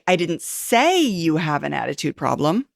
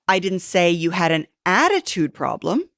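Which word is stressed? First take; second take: say; attitude. First: The word "say" is stressed. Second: The word "attitude" is stressed.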